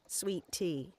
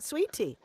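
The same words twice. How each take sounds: First: The stress falls on the second word, tea. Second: The stress falls on the first word, sweet. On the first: It marks a northerner imitating a southern accent. The speaker calls it wrong. "Accent on the second word. And as two words" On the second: It is how southerners actually say it. The speaker calls it right. "Accent on the first syllable of the one word"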